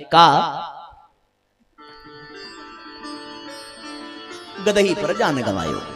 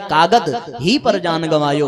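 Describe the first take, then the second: First: The break comes after "kaa". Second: The break comes after "kaagad".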